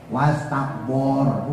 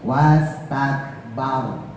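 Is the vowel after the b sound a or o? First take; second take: o; a. First: The vowel after b sounds like o. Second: The vowel after b is a clear a. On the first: The speaker calls it wrong. "jangan ikut bor" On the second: The speaker calls it right. "a-nya tetap jelas"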